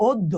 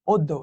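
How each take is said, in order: First: অদ্য said as "oddo", the অ rounded to ও; teacher models অদ্য with an o sound at the start; pronunciation demo. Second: অদ্য spoken as "oddo", first vowel ও; pronunciation demo. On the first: Teacher to students, showing how to say অদ্য. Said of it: "যদি আমি বলি তোমাকে একটা example দিই". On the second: Teacher to students, modelling অদ্য pronunciation. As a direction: repeat অদ্য slowly with a rounded o. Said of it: "এটার উচ্চারণ হচ্ছে অদ্য". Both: Shown as a demonstration.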